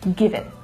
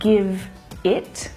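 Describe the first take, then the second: First: The two words run together smoothly. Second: The two words are said separately. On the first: The speaker calls it right. "linking to the ones that follow" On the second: The speaker calls it wrong. "instead of"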